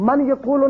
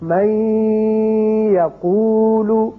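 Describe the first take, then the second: First: The n is said clearly before the y. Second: The n merges into y with a held nasal sound. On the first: The speaker calls it wrong. "मन यकूलु नहीं पढ़ेंगे" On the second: The speaker calls it right. "इदगाम होगा और नून की आवाज ठहरेगी नाक में"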